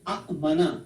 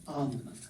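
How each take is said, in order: First: Two short vowels are split by a glottal catch. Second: One smooth long vowel with no glottal catch. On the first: This is the form the pattern predicts. "अफ अला से होना चाहिए अ मना" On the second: This is the form actually used everywhere. "इसके अंदर झटका नहीं लगता, ... इसको हम स्मूथ कर लेते हैं आमना"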